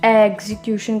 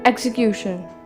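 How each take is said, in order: First: The stress falls on an outer syllable. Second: The stress falls on a middle syllable. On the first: The speaker calls it wrong. "ना तो हम इसको execution कहेंगे" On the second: The speaker calls it right. "Centre में stress देंगे"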